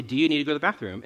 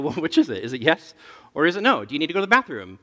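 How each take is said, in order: First: Quick routine question. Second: Put-on louder, pressing a toddler for a straight answer; half-laughing exasperation, voice rising at the end; exasperated dad. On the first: Retold or imitated. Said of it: "I'll say". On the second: Dad presses his daughter for an answer, exasperated and louder. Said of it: "And then I go".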